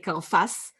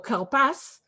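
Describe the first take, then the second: First: The middle consonant is an f sound. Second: The middle consonant is a p sound. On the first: The speaker calls it wrong. "You can't say karfas" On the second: The speaker calls it right. "You must have a p"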